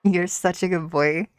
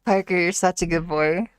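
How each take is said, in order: First: Put-on a light Scottish accent, praising the dog; praising Parker the dog in a shaky Scottish accent. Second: Put-on a light Scottish accent, calling the dog by name; a second go at Scottish praise for Parker; naming Parker the dog, then praising him in a Scottish accent. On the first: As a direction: try the good boy line in Scottish. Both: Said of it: "Could I do a good boy in a Scottish accent?".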